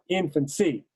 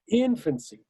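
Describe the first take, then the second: First: The final syllable is stressed. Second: The final syllable is unstressed. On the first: The speaker calls it wrong. "not infancy" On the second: The speaker calls it right. "the word is infancy"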